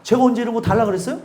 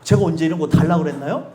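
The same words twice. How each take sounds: First: Quick mock retort. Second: A low, sulky imitation of a thankless reply; mock indignant retort. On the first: Preacher mimics today's world, fast and offhand. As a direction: rattle off the retort fast, a light imitation. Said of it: "요즘 세상이요?". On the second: Preacher mimics people refusing grace, sulky and low. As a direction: imitate a sulky ingrate, pitched lower. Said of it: "요즘에 뭐라고 얘기해요?".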